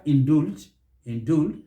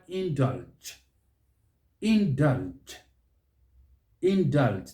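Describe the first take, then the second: First: "indulge" as in-DOOLJ; wrong vowel. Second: "indulge" as in-DULJ, with an open uh; second-syllable stress. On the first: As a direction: put a wrong oo in "indulge", tone rising. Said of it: "which is wrong". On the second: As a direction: hit DULJ in "indulge", falling. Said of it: "The stress is on that second syllable". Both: Shown as a demonstration.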